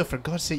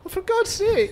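First: It is said in a calm, plain way. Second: It is said in a scared, panicky way.

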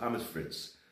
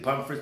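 First: It is said with the local German pronunciation. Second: It is said without the local German pronunciation. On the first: The speaker calls it right. "That's the real pronunciation of French fries here in Germany" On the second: The speaker calls it wrong. "people say"

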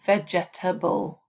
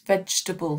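First: The word is said with four syllables. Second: The word is said with three syllables. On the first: The speaker calls it wrong. "Students often say vegetable" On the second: The speaker calls it right. "of course it's vegetable, three syllables"

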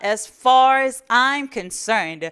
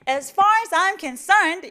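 First: The main stress is pushed toward the front. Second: The main stress falls late in the phrase. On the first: The speaker calls it right. "앞으로 민다는 느낌으로 강세를 주시면 되는 거예요" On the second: The speaker calls it wrong. "이게 아니라"

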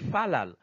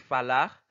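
First: The word ends with an L sound. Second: The word ends with an R sound. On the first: Other regions pronounce it this way. "il y a deux zones qui prononcent falal" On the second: Some regions pronounce it this way. "il y a deux zones qui prononcent falar"

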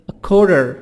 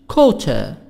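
First: It is said with an American accent. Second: It is said with a British accent.

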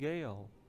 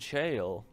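First: The word starts with a hard G sound. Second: The word starts with a J sound. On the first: The speaker calls it wrong. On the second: The speaker calls it right.

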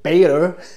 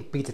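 First: It is said in an American accent. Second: It is said in a British accent.

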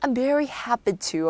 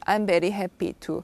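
First: It is said brightly, full of happy emotion. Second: It is said flatly, with no emotion. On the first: The speaker seems genuinely glad. The speaker calls it right. "행복하게 말씀하셔야 돼요" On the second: The speaker does not seem happy. The speaker calls it wrong. "감정 전혀 없게"

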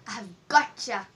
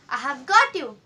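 First: The words 'got you' blend into one word. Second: The words 'got you' are said separately and fully.

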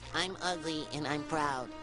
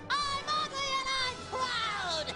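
First: It is said at normal, quieter volume. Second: It is said much louder, nearly shouted.

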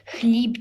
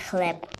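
First: The vowel sounds like 'ee'. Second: The vowel sounds like 'eh'. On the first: This is the Ukrainian form of the word. The speaker calls it right. "Хліб треба правильно казати" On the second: This is the Russian form of the word. The speaker calls it wrong. "а не хлеб. Хлеб це по-російськи"

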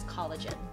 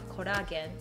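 First: It is said with English pronunciation. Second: It is said as a Japanese loanword.

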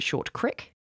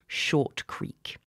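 First: The word creek has a short i vowel. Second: The word creek has a long ee vowel. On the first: The speaker calls it wrong. "some people pronounce it Short Crick" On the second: The speaker calls it right. "I'm not going to do that because I think it's dumb"

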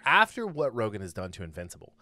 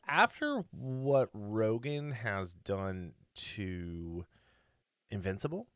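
First: The pitch falls at the end like a statement. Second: The pitch rises at the end like a question. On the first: It sounds like a statement. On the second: It sounds like a question.

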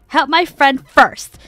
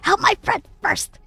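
First: It is spoken in a normal voice. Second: It is spoken in a whisper.

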